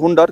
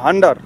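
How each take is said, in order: First: The first vowel is a rounded 'oo' sound. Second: The first vowel is an open 'ah' sound. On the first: "actually উচ্চারণ হচ্ছে হুন্ডার" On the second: "কেউ হান্ডার বলেন"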